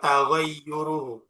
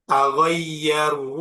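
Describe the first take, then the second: First: The vowel after the double y is u. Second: The vowel after the double y is a. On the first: "Kalau berupa isim maka dibaca taghayyuruhu" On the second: "bacanya taghayyaruhu apa taghayyuruhu"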